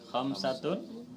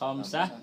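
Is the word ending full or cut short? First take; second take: full; cut short. First: The word ends with a full '-tun' ending. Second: The word ends cut short with '-ah'. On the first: "Itu kalau dibaca lengkap ya" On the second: "dibacanya dimatikan"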